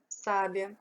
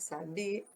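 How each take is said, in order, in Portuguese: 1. A sílaba tônica é a primeira, sa. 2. A sílaba tônica é a do meio, bi. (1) "O sá é a sílaba mais forte" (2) "o bi"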